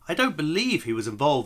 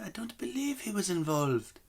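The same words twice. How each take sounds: First: It is said in the reader's ordinary accent. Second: It is said with a slight French accent. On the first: The speaker calls it wrong. "I know I should have done a half French accent there" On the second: The speaker calls it right. "That's not bad actually"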